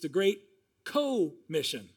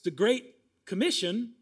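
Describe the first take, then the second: First: The stress is on the first syllable. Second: The stress is on the second syllable. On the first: The mission is shared with others. "we should maybe say it like this" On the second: It names the usual mission. "it's the Great Commission"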